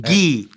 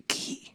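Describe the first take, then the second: First: Said in the usual way. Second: جي whispered without voice; جي همساً. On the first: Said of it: "انا اعرف اقول الجي". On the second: Shown as a demonstration. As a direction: whisper جي so it sounds like كي. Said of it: "تعرف تقول الجي".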